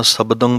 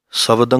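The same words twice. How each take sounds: First: ਸ਼ਬਦੰ with a clear b, never v; b-sound in ਸ਼ਬਦੰ. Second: ਸ਼ਬਦੰ said as sawdang with a v; the wrong v in ਸ਼ਬਦੰ; wrong v-sound. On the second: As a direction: mistaken v demo. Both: Shown as a demonstration. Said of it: "ਸ਼ਬਦੰ ਨਹੀਂ ਕਹਿਣਾ".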